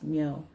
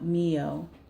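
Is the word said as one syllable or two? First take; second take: one; two. First: The word is said as one syllable. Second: The word is split into two syllables. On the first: The speaker calls it right. "It would be pronounced myo" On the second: The speaker calls it wrong. "not mio"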